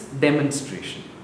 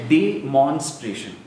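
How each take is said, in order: First: The stress does not fall on the syllable mon. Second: The stress falls on the second syllable, mon. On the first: The speaker calls it right. "It's demonstration" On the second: The speaker calls it wrong. "the way you're pronouncing it is demonstration. So the emphasis is on mon"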